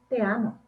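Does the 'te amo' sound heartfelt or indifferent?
indifferent. It is said flatly, without real feeling. The speaker does not truly feel it. "pero realmente no sentirlo"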